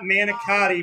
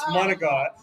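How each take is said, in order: First: The word has an English-style pronunciation. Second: The word has an Italian-style pronunciation. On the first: The speaker calls it wrong. "it's not manicotti" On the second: The speaker calls it right. "It's manicotti"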